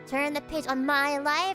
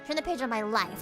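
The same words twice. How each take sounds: First: The stress falls on the word my. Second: The stress falls on the word life. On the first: The speaker calls it wrong. "That's like that's weird. You wouldn't say it like that" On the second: The speaker calls it right. "The emphasis is on life"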